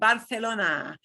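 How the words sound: The 'c' is pronounced as a 'th' sound. This is how people in Spain say it. "everybody who lives there says Barcelona. And it's a T H"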